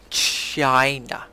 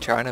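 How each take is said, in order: First: The word is said in an exaggerated, odd voice. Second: The word is said in a normal voice.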